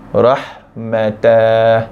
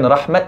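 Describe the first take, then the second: First: The word ends with an extra tah syllable. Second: The word ends with a clipped t sound. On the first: "bukan baca dengan rahmatah" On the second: "Dan bukan rahmat"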